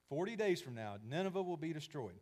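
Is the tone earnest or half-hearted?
earnest. It is said in an earnest, committed tone.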